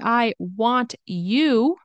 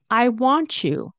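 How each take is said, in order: First: The t and y sounds stay separate. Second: The t and y merge into a ch sound. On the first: "So instead of saying" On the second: "We're going to make a C H sound"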